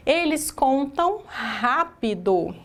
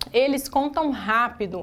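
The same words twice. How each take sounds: First: "eles contam rápido" spoken slowly, word by word, for the class to copy; slow dictation. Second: Said in the usual way. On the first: Shown as a demonstration. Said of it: "teacher dictates the example sentence". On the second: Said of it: "example sentence said again".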